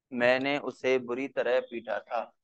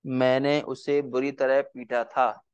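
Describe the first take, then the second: First: Said in the usual way. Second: मैंने उसे बुरी तरह पीटा था, धीरे धीरे शब्द शब्द अलग करके; बच्चों को लिखवाने के लिए धीमे बोलें; slow dictation. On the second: Shown as a demonstration. (धीमी लिखवाने वाली आवाज़) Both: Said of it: "एक वाक्य और लिखिए".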